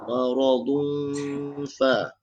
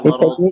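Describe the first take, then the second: First: The final n blurs into a hidden nasal hum. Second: The word is cut off with no nasal ending. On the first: The speaker calls it right. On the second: The speaker calls it wrong. "bukan marad"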